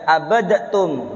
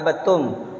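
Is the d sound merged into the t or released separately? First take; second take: released; merged. First: The d is released with a bouncing vowel. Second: The d merges into a doubled t sound. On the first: The speaker calls it wrong. "bukan dibaca abadatum" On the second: The speaker calls it right. "itu kan dibaca abattum"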